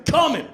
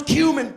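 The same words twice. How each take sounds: First: Cumin as CUM-in, short first vowel; cumin with an "uh" sound, no y-glide; joke pronunciation. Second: Cumin as KYOO-min, with a y-glide; cumin with a long "kyoo" first syllable; correct pronunciation. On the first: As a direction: say cumin starting like "come". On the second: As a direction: say cumin starting like "cue". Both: Acted. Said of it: "funny to pronounce cumin".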